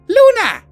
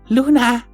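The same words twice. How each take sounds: First: The name is shouted loudly. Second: The name is said quietly and gently.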